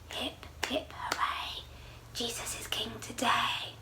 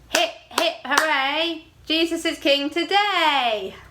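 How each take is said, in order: First: It is said very quietly. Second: It is said very loudly.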